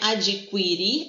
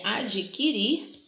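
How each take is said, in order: First: A u sound is heard after the k. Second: No u sound follows the k. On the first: The speaker calls it wrong. "não é" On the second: The speaker calls it right. "No Q U eu tenho um [dígrafo]"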